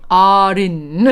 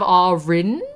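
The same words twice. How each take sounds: First: "R in" with a quick tapped R between the words; posh, old-timey flicked R in "R in". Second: Said in the usual way. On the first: Shown as a demonstration. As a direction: tap the R into "in". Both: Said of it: "instead of R in".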